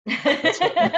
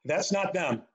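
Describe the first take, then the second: First: High laughing repeat; amused high-pitched disclaimer. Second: Said in the usual way. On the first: Real, not acted. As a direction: laugh through the denial. Laughing repeat about the music.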